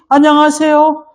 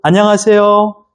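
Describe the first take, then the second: First: The greeting is spoken at a high pitch. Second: The greeting is spoken at a middle pitch. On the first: It sounds overly excited. "굉장히 업돼 있어요" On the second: It sounds the most pleasant and stable. "도레미파 솔 안녕하세요"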